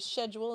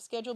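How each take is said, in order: First: The word is said with a British pronunciation. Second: The word is said with a non-British pronunciation. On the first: "in United Kingdom you say schedule" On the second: "instead of schedule"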